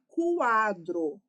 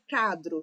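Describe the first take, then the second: First: The word starts with k followed by w. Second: The word starts with a plain k, no w. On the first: The speaker calls it right. "quadro tem o som do U" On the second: The speaker calls it wrong. "A gente não fala cadro"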